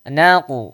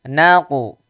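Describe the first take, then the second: The two takes are said the same way.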